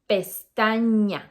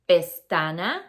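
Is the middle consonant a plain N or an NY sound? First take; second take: NY; plain N. First: The middle consonant is an NY sound. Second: The middle consonant is a plain N sound. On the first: The speaker calls it right. "we say pestaña" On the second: The speaker calls it wrong. "We don't say pestana"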